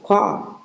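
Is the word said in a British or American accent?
British. It is said in a British accent.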